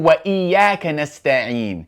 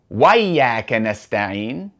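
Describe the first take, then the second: First: A glottal stop is heard before 'iyyaka'. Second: No glottal stop is heard before 'iyyaka'. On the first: The hamza is treated as a cutting one. The speaker calls it right. "We say" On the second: The hamza is treated as a connecting one. The speaker calls it wrong. "We don't say"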